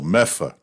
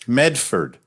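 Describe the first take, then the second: First: The word is reduced, dropping the d sounds. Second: The word is said in full, with both d sounds. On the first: "the only people who pronounce Medford, Massachusetts, Meffa are the people who live there" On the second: "finally, they go, Medford"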